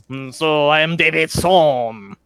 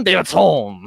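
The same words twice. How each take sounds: First: Slow, drawn-out "Sohm"; stress on Sohm. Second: "Sohm" said firmly as the correction; stress on Sohm. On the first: Knife thrower introducing himself, stressing "Sohm". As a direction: lean on the name "Sohm". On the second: Knife thrower correcting his name, stressing "Sohm". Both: Acted. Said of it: "Not David Sin".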